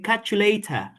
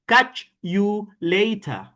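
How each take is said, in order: First: The words run together without breaks between them. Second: Each word is said separately with small breaks. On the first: The speaker calls it right. "Vous allez dire" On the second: The speaker calls it wrong. "Vous n'avez pas à séparer les mots. Vous n'allez pas dire"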